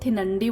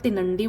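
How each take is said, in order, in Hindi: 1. पहली t ध्वनि ज़ोरदार महाप्राण है। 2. पहली t ध्वनि सादी, अल्पप्राण है। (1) "ना तो थिनंडी बोलना है" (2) "ना प्रॉपर तिनंडी बोलना है"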